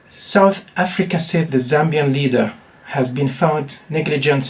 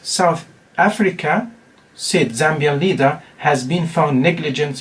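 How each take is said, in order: First: It is read straight through without pauses. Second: Pauses set off the words about the leader. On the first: The Zambian leader was found negligent. "We read it without any punctuation" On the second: South Africa was found negligent. "when you use punctuations"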